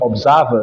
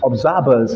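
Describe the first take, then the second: First: The consonant after 'ser' is a V sound. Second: The consonant after 'ser' is a B sound. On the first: "not observers" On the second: "he said observers"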